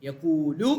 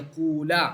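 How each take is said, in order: First: The word ends with a u vowel. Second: The word ends with an a vowel. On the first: The saying had already happened. "റഫ് ആയിട്ട് ഓതിയിട്ടുണ്ട്" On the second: The saying had not yet happened. "നസ്ബായിട്ട് ഓതിയിട്ടുണ്ട്"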